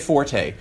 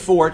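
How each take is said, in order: First: The word is said as two syllables. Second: The word is said as one syllable. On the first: This is the common form that became accepted through use. "a mispronunciation becomes acceptable" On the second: This is the original form, though it sounds mistaken to many. "if I said fort in a conversation, it would be assumed that I was wrong, even though I was correct"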